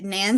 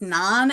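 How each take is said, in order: First: The name is said the usual, plain way. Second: The name is said like the bread naan. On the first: The speaker calls it right. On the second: The speaker calls it wrong.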